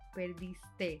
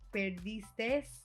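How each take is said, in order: First: The word ends without an s sound. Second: The word ends with an added s sound. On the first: The speaker calls it right. "but it's abriste, perdiste" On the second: The speaker calls it wrong. "is how we say it"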